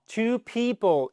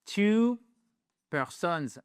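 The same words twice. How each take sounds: First: Slow, higher "two people"; teacher giving the right plural. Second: "two persons" given as the mistake; teacher showing the mistake; wrong plural. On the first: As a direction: say "people" clearly and slowly. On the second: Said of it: "Non, non". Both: Shown as a demonstration.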